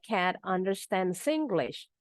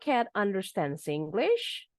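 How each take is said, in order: First: The voice falls at the end. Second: The voice rises at the end. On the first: It is a plain statement. "Dari yang intonasi datar dulu ya, statement selalu following intonation" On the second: The speaker can hardly believe it. "Now change the intonation with the rising one"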